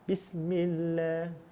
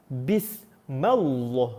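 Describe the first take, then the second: First: The l sound is light and thin. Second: The l sound is heavy and full. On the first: "Kerana bacaannya nipis"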